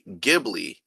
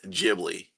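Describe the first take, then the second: First: The word is said with its original Italian sounds. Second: The word is said with its usual, non-Italian sounds. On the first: "the original Italian pronunciation would be" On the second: "its actual pronunciation is"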